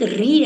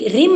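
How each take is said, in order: First: The word ends on a bare vowel. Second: The word ends with an added m sound. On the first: The speaker calls it right. "एक री है" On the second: The speaker calls it wrong. "री रिम नहीं है"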